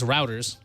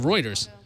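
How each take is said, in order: First: The word is said like 'routers'. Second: The word is said like 'Reuters'. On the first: The speaker calls it wrong. "which I always pronounce routers. So I was wrong" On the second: The speaker calls it right. "Right, so Reuters"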